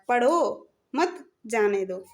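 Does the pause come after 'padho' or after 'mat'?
after padho. There is a pause right after 'padho'. Read, and do not go. "पहले में है कि पढ़ो जाओ मत"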